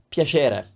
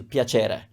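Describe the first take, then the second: First: Roman piacere with the ch softened to sh; Roman accent. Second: Piacere with a clear ch; standard ch sound. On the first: Teacher from Rome showing her Roman sh sound. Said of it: "almost like a sh". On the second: Teacher repeating piacere with a ch sound. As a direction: piacere said with ch, falling. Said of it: "that's the ch sound". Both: Shown as a demonstration.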